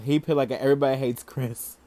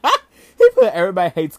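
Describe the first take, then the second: First: Said in the usual way. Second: Much louder, laughing through the words. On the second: Real, not acted. Vlogger repeats the meme to viewers, laughing loudly. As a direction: crack up as you repeat it.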